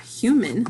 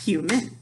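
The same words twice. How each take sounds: First: Said in the usual way. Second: "Human" in two beats, hu, man; split into syllables. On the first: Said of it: "when I clap human". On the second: Shown as a demonstration. Teacher finding the syllables, "Human" split in two. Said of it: "let's find out how many syllables".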